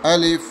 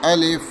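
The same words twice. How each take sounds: The two takes are said the same way.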